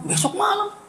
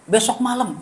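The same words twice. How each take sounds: First: Besok malam jumps far higher as a startled question; shocked echo. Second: Said in the usual way. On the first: Retold or imitated. Preacher hearing he must preach tomorrow night, startled disbelief. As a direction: repeat Besok malam in disbelief, pitch leaping up.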